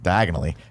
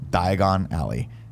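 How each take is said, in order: First: It is said very fast, run together. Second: It is said at a normal, unhurried pace.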